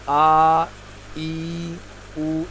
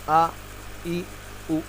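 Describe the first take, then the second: First: The vowels are stretched out long. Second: The vowels are said short and soft. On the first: The speaker calls it wrong. "इसको खींच कर नहीं पढ़ते हैं। जैसे इसको आ ई ऊ इस तरह नहीं पढ़ेंगे" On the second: The speaker calls it right. "इसको बहुत ही सॉफ्टली पढ़ा जाता है, आ ई ऊ इस तरह पढ़ेंगे"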